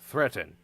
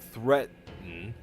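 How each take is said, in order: First: The word is said smoothly without pausing. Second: The word comes with an odd pause. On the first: The speaker calls it right. "we can fix it in post" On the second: The speaker calls it wrong. "Weird pause there"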